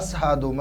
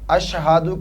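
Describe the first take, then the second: First: The word is said with an 's' sound. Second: The word is said with a 'sh' sound. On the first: "शीन के जगह सीन पड़ा जाता है" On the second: "शीन"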